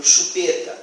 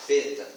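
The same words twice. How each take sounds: First: Said in the usual way. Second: Peta with chu dropped; child's version. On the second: Shown as a demonstration. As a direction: say only peta. (peta, imitando a criança) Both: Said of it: "como exemplo".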